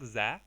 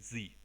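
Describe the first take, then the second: First: The vowel is a short, reduced 'uh' sound. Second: The vowel is a long 'ee' sound. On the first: The speaker calls it wrong. "ми його вже читаємо не як «the»" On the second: The speaker calls it right. "а як «the»"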